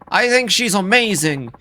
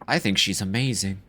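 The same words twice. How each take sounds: First: It is said loudly. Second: It is said quietly.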